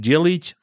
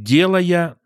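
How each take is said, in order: First: The word ends with a t sound. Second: The word ends in a vowel without t. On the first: This is the standard form. "вместо «делает»" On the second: This is the local dialect form. "будет «делая»"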